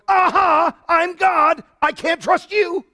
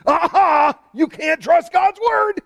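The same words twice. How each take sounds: First: High, loud triumphant aha; God's mock reply. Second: High, loud mocking shout; a sneering critic crowing aha; mocking sceptic. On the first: Preacher voicing God's triumphant answer, high and loud. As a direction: turn the tables with a gloating aha. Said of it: "God eventually goes". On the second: Preacher mocking critics with a high, loud gloat. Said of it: "they bring up the supposed thing".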